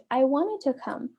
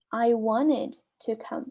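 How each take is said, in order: First: Said in the usual way. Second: Slow, careful model sentence; slow repeat. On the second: Shown as a demonstration. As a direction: say it slowly for learners to repeat. (devagar, para repetir) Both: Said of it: "Aí olha que a pessoa responde".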